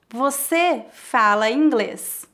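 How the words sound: It is said with statement intonation. It asserts that the listener speaks English. "É uma afirmação"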